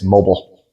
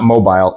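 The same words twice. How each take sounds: First: The last syllable sounds like 'bull'. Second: The last syllable rhymes with 'bile'. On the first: "it's bull" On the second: "it is not mobile, / We don't say it bile"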